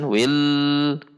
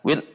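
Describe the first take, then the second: First: The l is held on for long. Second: The l is cut off abruptly. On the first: "tidak dibaca ditahan" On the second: "atau dibaca dihentak"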